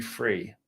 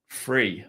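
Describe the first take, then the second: First: Said in the usual way. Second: "free" with the th said as an f, Essex style. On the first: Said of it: "I can't pronounce them". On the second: Shown as a demonstration. To chat viewers, showing how Essex speakers say it, th as f. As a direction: say "free" for three, th turned to f. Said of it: "That's why I say".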